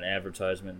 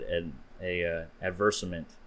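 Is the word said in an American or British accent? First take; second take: American; British. First: The word is said with an American pronunciation. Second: The word is said with a British pronunciation.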